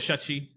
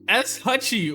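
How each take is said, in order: First: It begins with a single sh sound. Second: It begins with an s, then an h. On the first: The speaker calls it wrong. "I'm gonna go with Shutchi" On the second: The speaker calls it right. "No, I was totally wrong. S Hutchie"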